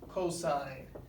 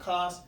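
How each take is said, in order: First: The word is said in full with two syllables. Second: The word is cut short to one syllable. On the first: The speaker calls it right. "Cosine, not cos, cosine" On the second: The speaker calls it wrong. "not cos"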